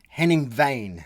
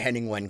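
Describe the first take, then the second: First: The surname is pronounced like Vane. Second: The surname is pronounced like Wen. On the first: The speaker calls it right. "It's Vane" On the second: The speaker calls it wrong. "we're pronouncing it all wrong"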